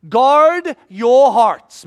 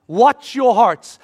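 First: Loud, slow urgent warning; urgent plea. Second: Loud slow repeated warning; urgent plea. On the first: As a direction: drive the warning home, slowly and loud. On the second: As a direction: press it again, slow and firm. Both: Acted. Jesus urging disciples.

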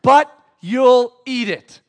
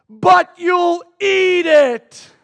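First: Loud, slow, spaced-out words; repeated toddler protest. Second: High, slow mock-child shout; toddler protest. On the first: Retold or imitated. Preacher repeating his son's complaint, loud slow mock protest. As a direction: hammer out each word in mock accusation. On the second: Three-year-old accusing his father, shouted mock outrage. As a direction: wail it like an outraged toddler, every word stretched.

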